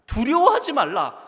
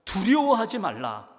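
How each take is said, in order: First: 두려워하지 cried out louder and higher, falling at the end; emphatic repeat. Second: 두려워하지 read slowly and evenly as scripture; slow scripture quote. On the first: Pastor driving home Jesus' command, loud and high. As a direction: proclaim 두려워하지 말라 at full force. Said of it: "repeats the command emphatically". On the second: Jesus telling listeners not to fear, read slowly. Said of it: "예수님이 이렇게 말씀하십니다". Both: Acted.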